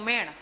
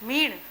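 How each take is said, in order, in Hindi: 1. यह स्वर खुला 'e' ध्वनि है। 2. यह स्वर बंद 'ee' ध्वनि है।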